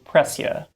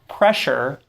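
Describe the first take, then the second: First: The middle has an s followed by y. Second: The middle has a merged sh sound. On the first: This is an older pronunciation. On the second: This is the modern pronunciation.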